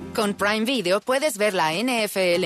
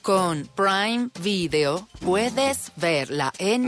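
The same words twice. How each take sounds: First: The sentence is spoken at a normal, quick pace. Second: The sentence is spoken slowly and deliberately.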